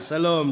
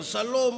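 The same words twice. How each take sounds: First: The greeting is said with a slightly lowered voice. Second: The greeting is said warmly with high energy.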